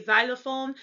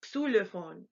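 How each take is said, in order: First: Xylophone begun with 'z', 'zy-lo-phone'; English X as Z. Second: Xylophone begun with 'ks' and a German ü. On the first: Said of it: "pronounced like a Z". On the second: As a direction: say Xylophone as 'ksü-lo-fohn'. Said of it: "still has that X sound". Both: Shown as a demonstration.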